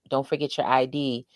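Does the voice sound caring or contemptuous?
caring. It is said in a warm, caring tone. The reminder comes from care for the listener. The speaker calls it right. "that's like respectful protection"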